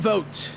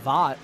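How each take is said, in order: First: The vowel sounds like 'oh' as in vote. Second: The vowel sounds like 'aw' as in bought. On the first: The speaker calls it right. "Vote is how they pronounce the driver of the twenty-two's last name" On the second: The speaker calls it wrong. "I was thinking for a moment it was Vought, like the boys"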